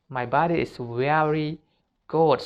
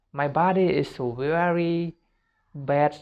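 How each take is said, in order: First: Positive self-talk. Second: A slightly raised, lightly disapproving voice putting your own body down; negative self-talk. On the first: Coaching students, the right way to talk about your body, mildly affirming. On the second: Coaching students, the wrong way to talk about your body, mildly disapproving. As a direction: say it as if you mean it, the wrong way. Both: Shown as a demonstration. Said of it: "no, like this".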